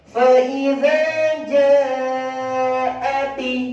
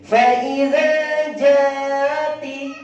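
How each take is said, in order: First: The vowel in 'ja' is held long. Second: The vowel in 'ja' is kept short. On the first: The hamza sound is completed fully. The speaker calls it right. "Ya, lebih panjang" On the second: The hamza sound is left incomplete. The speaker calls it wrong. "Kenapa kalau tidak dipanjangkan menjadi begini?"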